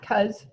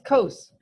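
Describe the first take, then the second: First: The word sounds like the slang word for cousin. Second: The word does not sound like slang for cousin. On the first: The speaker calls it wrong. "not cos, ... This is not my cos that lives in Yorkton" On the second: The speaker calls it right. "And it's cos"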